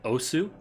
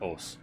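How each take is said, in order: First: The final u vowel is clearly pronounced. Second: The final u vowel is dropped entirely. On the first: The speaker calls it wrong. "Captain K was pronouncing it osu" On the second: The speaker calls it right. "it's just pronounced os"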